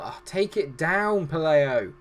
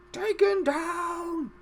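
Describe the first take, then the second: First: Said in the usual way. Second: Very high, drawn-out cry; film quote voice. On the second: Acted. Commentator quoting Lord of the Rings, high drawn-out cry. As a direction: stretch it into a long, high put-on call. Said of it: "as they would say in Lord of the Rings".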